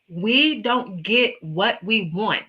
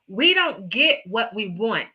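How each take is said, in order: First: It is spoken at a slower, deliberate pace. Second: It is spoken at a normal, quicker pace. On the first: "I'm going to say it again a little bit slower" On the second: "I'm going to just say it"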